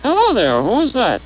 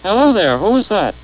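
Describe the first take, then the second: First: The pitch rises and falls with double range. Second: The pitch rises and falls with normal range.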